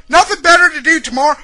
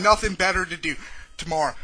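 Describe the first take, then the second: First: Incredulous angry echo, louder, higher and fast; angry retort. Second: Said in the usual way. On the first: Real, not acted. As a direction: throw it back at them in outrage. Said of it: "this is gonna be a fucking angry".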